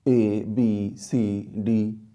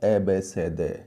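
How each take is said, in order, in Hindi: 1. हर अक्षर उसके वर्णमाला नाम से बोला जाता है। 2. हर अक्षर एक छोटी ध्वनि के रूप में बोला जाता है। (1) "ए बी सी डी ऐसे पढ़ते हैं ना? नहीं भाई नहीं।" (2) "अब हमें सीखना होगा ए बे से दे"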